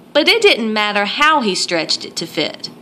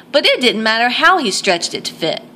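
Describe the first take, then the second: The two takes are said the same way.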